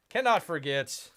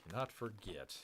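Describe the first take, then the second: First: Cannot forget called out firmly; a loud, firm build-up; emphatic announcement. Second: Cannot forget said softer and lower; a quiet, lower echo; hushed repeat. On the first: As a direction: announce it like a big reveal. Building up to nemesis reveal. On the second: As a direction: drop the voice for suspense. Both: Acted.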